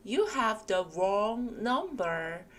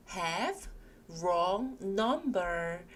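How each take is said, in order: First: Very slow, carefully spaced English; slow model phrase. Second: "Have" and "wrong number" hit strongly; stressed words. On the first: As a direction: read it out slowly for the class. (아주 천천히 또박또박) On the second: ("Have"와 "wrong number"를 세게) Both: Shown as a demonstration. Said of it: "세게 읽으시면 되겠습니다".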